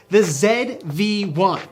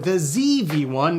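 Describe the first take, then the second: First: The Z is said as zed, non-American. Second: The Z is said as zee, American.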